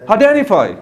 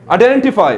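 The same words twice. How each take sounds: First: आइडेंटिफाई with the T dropped after N; silent t. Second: आइडेंटिफाई with a clear T after the N; hard t. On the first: Teacher showing the native way, T silent. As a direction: say आइडेंटिफाई as aidenifai. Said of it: "वो बोलते हैं आइडेंटिफाई". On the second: Teacher showing the local way, T sounded. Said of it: "हम इस तरह बोलते हैं". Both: Shown as a demonstration.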